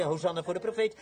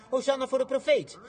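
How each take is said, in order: First: Said in the usual way. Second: High, projected acclaim; excited shout of praise, not full-out; crowd's acted cheer. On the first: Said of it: "De een schreeuwde". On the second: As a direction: hail the prophet as you run. Crowd runs, cheering the prophet.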